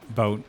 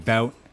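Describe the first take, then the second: First: It is said with a Canadian accent. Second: It is said with an American accent.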